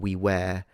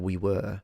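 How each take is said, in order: First: The word were has the same vowel as where. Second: The word were has a different vowel from where. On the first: "I did hear people from Australia pronouncing them the same" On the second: "instead of we were for the past"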